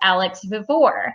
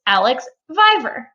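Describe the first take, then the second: First: The surname does not sound like 'Survivor'. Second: The surname sounds like the end of 'Survivor'. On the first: The speaker calls it wrong. "that was not the correct pronunciation" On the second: The speaker calls it right. "a reference to Survivor and is pronounced Alex Viver"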